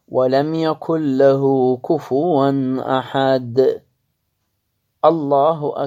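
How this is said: A short pause comes before the final word. "أكو سكتة بسيطة"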